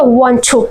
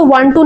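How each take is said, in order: First: Want to run together with a "ch"-like t, "wan-choo"; blended WANT TO. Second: Said in the usual way. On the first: Shown as a demonstration. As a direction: say want to as "wanchoo". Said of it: "want to बोल दो". (want to को "वांछू" जैसा बोलें) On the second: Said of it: "want to नहीं बोलेंगे".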